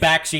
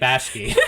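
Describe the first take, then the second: First: The k sound comes before the sh sound. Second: The sh sound comes before the k sound. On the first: The speaker calls it right. "we're saying Bakshi" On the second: The speaker calls it wrong. "you're saying Bashki"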